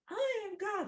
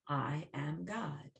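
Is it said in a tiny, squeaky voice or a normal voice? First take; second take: tiny; normal. First: It is said in a tiny microbe voice. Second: It is said in the speaker's normal voice.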